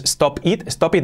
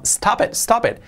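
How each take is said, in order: First: "stop it" with a full, rounded o in stop; separated words. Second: "stop it" run together like "stapet", higher pitch; natural linked pronunciation. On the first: Teacher showing learners what to avoid, "stop it" pronounced as written. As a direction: say "stop it" as spelled, word by word. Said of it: "Fijaos que no es". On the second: Teacher showing how it really sounds, "stop it" fused as "stapet". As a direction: link "stop it" into one word with an open a. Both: Shown as a demonstration.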